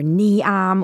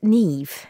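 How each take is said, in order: First: The name ends without a v sound. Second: The name ends with a v sound. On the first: The speaker calls it wrong. "They say Niam or Niam or Niaim" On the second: The speaker calls it right. "but pronounced Niamh"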